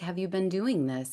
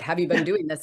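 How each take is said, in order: First: It is asked in a gentle, soft tone. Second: It is asked in a stern, checking tone.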